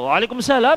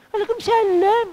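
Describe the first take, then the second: First: It is said plainly in an ordinary, even tone. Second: It is drawn out in a soft, lilting, melodious way. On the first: It is a simple, neutral reply. The speaker calls it right. "biasa aja" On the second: It invites attraction from the listener. The speaker calls it wrong. "tidak usah jawabnya didayu-dayu"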